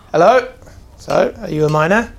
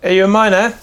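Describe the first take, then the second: First: Startled, then press the question; surprised dwarf voice. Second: Louder suspicious dwarf question; gruff dwarf voice. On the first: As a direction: gasp then louder, higher hello. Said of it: "And he kinda like". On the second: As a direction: eye them up and ask. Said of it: "He looks over and goes". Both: Acted.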